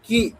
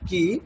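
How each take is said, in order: First: The k sound is pressed hard and stressed. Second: The k sound is said plainly, without stress. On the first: "কয়ের উপর আমি stress দেবো কি এরকম" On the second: "আর এমনি কি এর উচ্চারণ কি"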